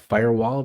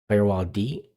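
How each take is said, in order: First: The name ends in an -ed sound. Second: The final D is spelled out as a letter. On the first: "or Firewalled" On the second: "I don't know how to pronounce it"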